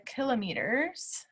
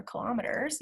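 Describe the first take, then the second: First: Kilometers said as KILL-o-MEE-ters; KILL-o-meters pronunciation. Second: Kilometers said as kil-OM-uh-ters; kil-OM-eters pronunciation. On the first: Teacher naming the unit for students, kilometers as KILL-o-meters. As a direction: stress the first syllable of kilometers, long MEE. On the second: Teacher offering the other way to say it, kilometers as kil-OM-eters. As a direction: put the stress on OM in kilometers. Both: Shown as a demonstration. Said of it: "either way".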